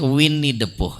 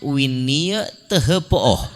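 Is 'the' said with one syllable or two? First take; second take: one; two. First: 'The' is said as one short syllable. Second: 'The' is spelled out as two syllables. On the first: This is how it is actually read. "jadinya bacaannya" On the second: This is how the spelling would suggest reading it. "Aturannya bacaannya"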